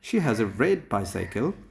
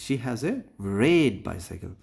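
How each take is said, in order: First: The words are said evenly, without special stress. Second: One word carries strong extra stress.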